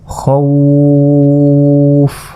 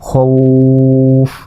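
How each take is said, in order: First: The vowel is stretched to a long length. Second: The vowel is stretched only a short length. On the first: "তিন আলিফ পরিমাণ টেনে পড়লাম" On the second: "এক আলিফও টান দিতে পারি"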